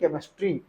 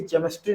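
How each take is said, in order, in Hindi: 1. शब्द 'k' ध्वनि से शुरू होता है। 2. शब्द 'ch' ध्वनि से शुरू होता है। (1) "तब सी एच का साउंड क होता है" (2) "नहीं"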